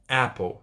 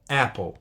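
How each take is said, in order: First: The first vowel is wide open and throaty. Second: The first vowel is wide open and throaty.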